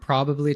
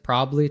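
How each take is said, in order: First: All syllables and both b sounds are pronounced. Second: Some sounds are dropped, shortening the word. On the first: "it can go from probably" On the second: "to probably"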